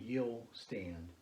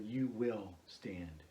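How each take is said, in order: First: It is said as one contracted syllable, you'll. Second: It is said as two full words, you will. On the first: "we would contract that and do a contraction" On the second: "or you will stand"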